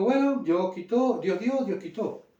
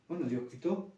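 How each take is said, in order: First: Higher, slow resigned acceptance; Job's acceptance. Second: Much softer, hushed resignation; quiet acceptance. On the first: Retold or imitated. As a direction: let it go slowly, accepting the loss. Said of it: "él dijo". (Job resignado, lento y más agudo) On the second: Pretend. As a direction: say it under your breath, giving it up. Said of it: "este mismo pensamiento de Job". (aceptación en voz muy baja)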